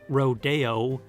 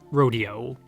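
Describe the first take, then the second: First: The stress is on the second syllable. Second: The stress is on the first syllable. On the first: It follows the Spanish source word. The speaker calls it right. "was the correct pronunciation" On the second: It comes from reading the word without the accent. The speaker calls it wrong. "not rodeo"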